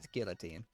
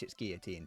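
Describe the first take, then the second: First: Said with a plain English pronunciation. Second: Said with an exaggerated, put-on French accent. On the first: The speaker is neither French nor pretending. "if you're anyone else" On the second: The speaker is pretending to be French. "if you're pretending to be French"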